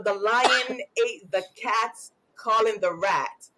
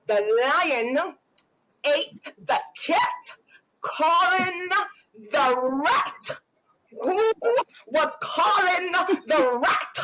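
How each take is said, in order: First: Put-on child reading slowly, stumbling; slow halting reading. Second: Slow, higher, menacing word-by-word correction; mock-enraged parent spelling out every word; hammed-up wrath, each word drawn out; demonic homework fury. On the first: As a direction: read it haltingly like a struggling kid. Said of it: "say something". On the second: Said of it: "a demonic spirit just come over me".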